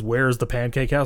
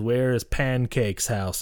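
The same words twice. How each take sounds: First: Said in the usual way. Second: Slow, deliberate delivery of "Pancake's house"; imitating a stilted reading of "Pancake's house"; odd scripted phrasing. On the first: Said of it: "he didn't say it like that". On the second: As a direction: say "Pancake's house" slowly, as written with its typo. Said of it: "you need to say it like that".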